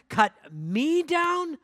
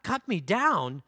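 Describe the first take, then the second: First: Much higher, drawn out slowly in horror; the second, wailing cut me down; horrified cry. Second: Slow, shocked question; stunned disbelief. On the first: Bamboo crying out at the master, high slow horrified wail. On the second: Bamboo repeating the master's words, slow stunned disbelief. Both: Acted. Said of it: "A trembling of great horror shook bamboo".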